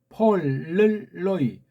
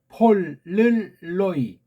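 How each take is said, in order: Both takes have the same delivery.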